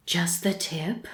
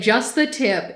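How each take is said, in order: First: Soft breathy whisper of a retold line. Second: Said in the usual way. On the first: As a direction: whisper it like in bed. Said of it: "whispering in bed goes". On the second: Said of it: "This guy said".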